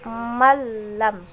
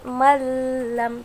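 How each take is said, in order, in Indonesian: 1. Bunyi gabungannya tidak ada dengung sengau. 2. Bunyi gabungannya ada dengung sengau. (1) "tidak boleh tapi masuk malam" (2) "tidak boleh juga dengan suara dengung seperti ini malam"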